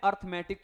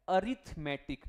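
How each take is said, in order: First: अर्थमेटिक starting "arth" as students say it; the student's अर्थमेटिक; wrong way. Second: अरिथमेटिक starting "a-rith", like arithmetic; corrected अरिथमेटिक; right way. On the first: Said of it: "अर्थमेटिक नहीं होता". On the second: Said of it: "क्या होता है?". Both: Shown as a demonstration.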